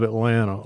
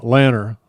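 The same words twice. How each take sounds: First: Said in the usual way. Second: "Lanner" said for Atlanta, first syllable punched; local Southern pronunciation. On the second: Shown as a demonstration. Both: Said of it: "That's how we cut, we say it".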